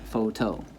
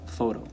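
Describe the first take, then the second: First: PHOTO drawn out slowly as foh-TOH, end stressed; slow photo down and weight the TOH; stress on last syllable. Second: PHOTO said naturally, FOH-toh; stress on first syllable. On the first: Teacher showing what it is not, photo stressed on TOH. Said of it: "And not". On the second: Teacher giving the everyday form, photo stressed on FOH. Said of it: "you know from everyday life". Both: Shown as a demonstration.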